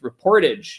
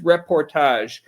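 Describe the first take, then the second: First: The ending does not rhyme with 'mirage'. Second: The ending rhymes with 'mirage'. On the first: The speaker calls it wrong. "we talk like Midwesterners up there. So we look at it as just reportage" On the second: The speaker calls it right. "but no, it is reportage"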